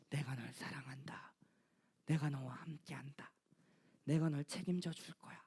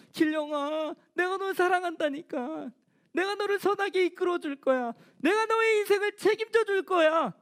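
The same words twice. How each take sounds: First: Soft unvoiced whisper, much lower and quieter; whispered God's voice. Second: Raised, fervent divine voice, higher; God's voice calling. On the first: Pastor voicing God to himself, hushed whisper. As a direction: breathe it like a secret promise. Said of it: "계속 찾아오셔서". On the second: Acted. Pastor voicing God to young Gilryeong, raised and fervent. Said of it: "또 찾아오셔서".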